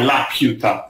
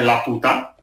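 First: The name is said with an English 'pyoo'. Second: The name is said with a plain Spanish 'pu'. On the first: The speaker calls it right. "ma è la piuta in inglese" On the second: The speaker calls it wrong. "come sarebbe stato in spagnolo"

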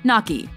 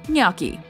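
First: The word sounds like 'nock-ee'. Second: The word sounds like 'nyoh-kee'. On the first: The speaker calls it wrong. "Common mispronunciation" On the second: The speaker calls it right. "Correct pronunciation"

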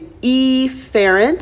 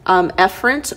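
First: The first vowel is deliberately pronounced differently. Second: The first vowel is pronounced the usual way. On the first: "I like to mispronounce the first letter on purpose" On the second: "We also call that efferent"

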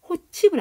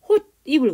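First: The middle consonant is a ch sound. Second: The middle consonant is an n sound. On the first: The speaker calls it wrong. "이거 호칩을 안 그러지" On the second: The speaker calls it right. "호입을 그러지"

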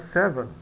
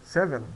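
The two takes are said the same way.

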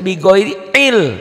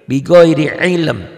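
First: The final m sound is left out. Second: The final m sound is clearly pronounced. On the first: The speaker calls it wrong. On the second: The speaker calls it right.

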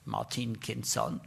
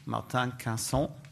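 First: The name is said with English pronunciation. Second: The name is said with French pronunciation.

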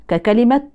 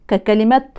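The two takes are said the same way.

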